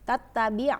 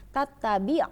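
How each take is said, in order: No difference in how they are said.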